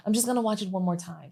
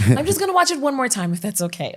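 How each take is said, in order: First: Quick, softer imitation of a child; imitated daughter. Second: Quick, higher child imitation with a laugh; imitated proper daughter. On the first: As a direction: slip in a quick, quiet child's request. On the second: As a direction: mimic a polite child, fast and high. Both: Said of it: "She's real proud".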